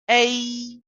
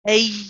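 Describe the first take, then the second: First: The sound is voiced with no breath mixed in. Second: The sound is mixed with audible breath. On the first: The speaker calls it right. "we pronounce this as a" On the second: The speaker calls it wrong. "incorrect because it's mixed with the breath"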